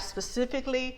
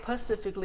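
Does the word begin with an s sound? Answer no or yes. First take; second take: yes; no. First: The word begins with an s sound. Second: The word begins with a p sound, no s. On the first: The speaker calls it right. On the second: The speaker calls it wrong.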